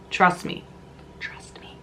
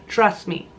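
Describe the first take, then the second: First: Soft conspiratorial whisper. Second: Said in the usual way. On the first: Shown as a demonstration. Whispering a tip to viewers, softly. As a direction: lean in and whisper it. Repeated trust me fading to whisper.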